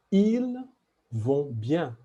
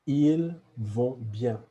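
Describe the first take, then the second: First: "ils" said like il with no s sound, pitched up; silent s in ils. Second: "Ils vont bien" repeated calmly, no s on "Ils"; silent s in ils. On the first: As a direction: say "ils vont bien" without sounding the S. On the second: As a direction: model "Ils" again, s silent. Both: Shown as a demonstration. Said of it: "we will not sound the S".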